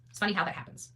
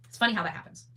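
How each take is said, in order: Both takes have the same delivery.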